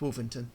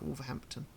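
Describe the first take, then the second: First: The h sound in the middle is dropped. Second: The h sound in the middle is pronounced. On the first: The speaker calls it right. "There's no H there" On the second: The speaker calls it wrong. "It's not Wolverhampton"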